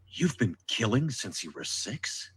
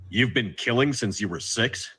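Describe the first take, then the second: First: It is asked with more compassion. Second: It is asked in a neutral tone.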